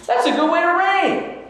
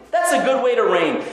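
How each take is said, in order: First: Admiring exclaim. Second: Said in the usual way. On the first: Acted. Praising the king's way of ruling.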